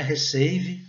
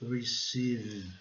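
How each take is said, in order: First: "receive" misread Brazilian-style as re-SEI-ve, with H-like R; wrong pronunciation. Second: "Receive" with English R and long ee; correct pronunciation. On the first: Teacher shows the mistake to avoid, Brazilianized pronunciation. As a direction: say "receive" as spelled in Portuguese, ei in the middle. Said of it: "não é receive". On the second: Teacher corrects the mistake, careful English pronunciation. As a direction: draw out the I sound in "Receive". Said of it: "aqui o E tem o som de I". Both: Shown as a demonstration.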